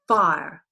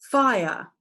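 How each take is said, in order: First: The word is said as one syllable. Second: The word is said as two syllables. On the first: "that fits the pattern of the I being the syllable" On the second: "I R E is pronounced aya"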